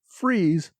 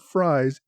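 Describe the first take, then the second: First: The vowel sounds like 'ee' in 'free'. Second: The vowel sounds like 'eye' in 'fry'. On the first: The speaker calls it right. "Freeze, not Fries, is the correct pronunciation" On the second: The speaker calls it wrong. "not Fries"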